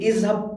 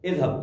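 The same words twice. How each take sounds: First: The consonant is a plain buzzing z sound. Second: The consonant is a soft th sound, tongue between teeth. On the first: It means something else. The speaker calls it wrong. "लेकिन इज़हब पढ़ेंगे तो कुछ और माना हो जाएगा" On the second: It means go away. The speaker calls it right. "सो माना चले जाओ"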